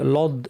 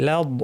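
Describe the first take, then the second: First: The l sound is heavy and dark. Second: The l sound is light and thin. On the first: The speaker calls it wrong. "অনেকে লাম শুদ্ধ ভারী করে লদ এইভাবে বলেন, এটা ঠিক না" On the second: The speaker calls it right. "লাদ বলার সময় লাম পাতলা"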